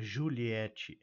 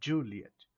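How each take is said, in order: First: The stress is on the last syllable. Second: The stress is on the first syllable. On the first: The speaker calls it wrong. "não é Juliette" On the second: The speaker calls it right. "com tônica na primeira"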